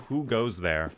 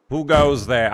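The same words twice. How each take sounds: First: Said in the usual way. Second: Loud, hammed-up medieval sentry. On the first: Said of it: "hearing Beaver say". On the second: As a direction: call it out like a guard's challenge. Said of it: "like, a medieval voice".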